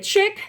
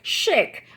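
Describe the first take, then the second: First: It is said like 'chick', with a short vowel. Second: It is said like 'sheek', with a long vowel. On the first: It refers to a girl. "it could be a chic because you're a girl" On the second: It means glamorous and stylish. "or chic for glam"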